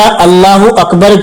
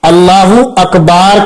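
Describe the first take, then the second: First: The last vowel of Akbar is short. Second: The last vowel of Akbar is drawn out long.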